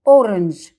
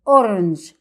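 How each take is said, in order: First: The vowel after the r is dropped. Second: The vowel after the r is dropped.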